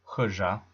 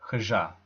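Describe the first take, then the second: First: The stress is on the first syllable. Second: The stress is on the last syllable. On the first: The speaker calls it right. "the stress is always on the penultimate syllable" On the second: The speaker calls it wrong.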